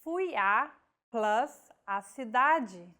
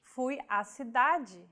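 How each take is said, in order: First: Fui a, plus a cidade, each part set apart with a break; split into parts. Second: Fui a cidade run together as one flowing phrase; contracted crasis. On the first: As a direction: pause between preposition and article. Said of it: "Verb, preposition, article, object". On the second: Teacher shows the joined form, smooth and merged. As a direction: say it smoothly, the two a's merged. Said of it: "contraction of a feminine article with a preposition". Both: Shown as a demonstration.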